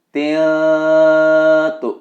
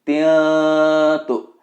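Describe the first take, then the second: The two takes are said the same way.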